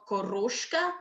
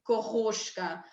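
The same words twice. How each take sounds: First: The R is rolled at the tongue tip. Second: The R is guttural, like German.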